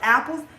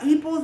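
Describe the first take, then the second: First: The first vowel sounds like 'a'. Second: The first vowel sounds like 'ee'. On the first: The speaker calls it right. "it's pronounced apples" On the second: The speaker calls it wrong. "you're calling it an eeple"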